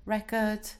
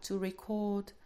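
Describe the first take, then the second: First: Record stressed on first syllable, REcord, with a reduced second vowel; noun stress. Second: Record stressed on second syllable, re-CORD, with a short weak first vowel; verb stress. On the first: Teacher showing students the noun record, stress on REC. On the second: Teacher contrasting the verb record with the noun, stress on CORD. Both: Shown as a demonstration. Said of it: "you can have some variation in stress".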